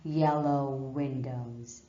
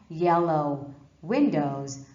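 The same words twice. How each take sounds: First: One w sound links the two words. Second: The w sound is said twice, words separated. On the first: The speaker calls it right. "but yellow windows" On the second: The speaker calls it wrong. "Not yellow windows"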